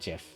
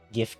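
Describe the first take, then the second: First: The word begins with a soft G sound. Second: The word begins with a hard G sound. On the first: The speaker calls it wrong. "not GIF" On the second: The speaker calls it right. "I pronounce it GIF with a hard G"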